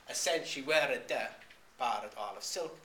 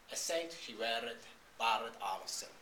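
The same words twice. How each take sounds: First: "weared" with an extra "-uh" syllable on the end; louder verse reading, "weared" drawn out to "wear-ed-uh"; sounded final E. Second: "weared" with no extra E sounded at the end; measured verse reading, "weared" cut short before "barred"; dropped final E. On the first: Lecturer showing the spoiled rhythm, "weared" with its final E sounded. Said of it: "'cause that would be eleven syllables". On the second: Lecturer showing the kept rhythm, "weared" without its final extra syllable. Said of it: "So that just gets dropped". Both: Shown as a demonstration.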